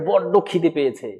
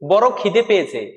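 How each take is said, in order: First: The consonant in the first word is doubled. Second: The consonant in the first word is short. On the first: One is very hungry. "তার মানে কি অনেক খিদে পেয়েছে" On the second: One is hungry. "মানে খিদে পেয়েছে"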